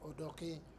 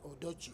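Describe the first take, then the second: First: The name ends with a 'ke' sound. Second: The name ends with a 'chi' sound. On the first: The speaker calls it right. "it is Odoke" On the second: The speaker calls it wrong. "here they wrongly pronounce it Odochi"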